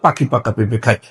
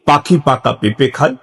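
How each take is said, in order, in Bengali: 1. এটি সবচেয়ে দ্রুত গতিতে বলা হচ্ছে। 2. এটি একটু দ্রুত গতিতে বলা হচ্ছে। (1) "আরো একটু দ্রুততার সাথে" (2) "আরেকটু স্পিডে"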